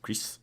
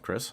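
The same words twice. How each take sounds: First: The name is said with French sounds. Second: The name is said with English sounds.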